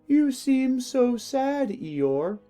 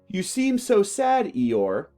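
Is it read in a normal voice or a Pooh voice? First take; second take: Pooh voice; normal voice. First: It is read in a put-on Pooh voice. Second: It is read in the reader's normal voice.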